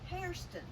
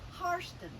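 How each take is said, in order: First: The first syllable sounds like the word hair. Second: The first syllable does not sound like hair. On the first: This is how the freed slaves said the name. "like your literal hair" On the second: This is how the plantation owners said the name. "their name was pronounced Harston"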